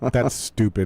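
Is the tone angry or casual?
casual. It is said in a relaxed, casual tone. The speaker is only being blunt about the idea. The speaker calls it right. "I'm going like this"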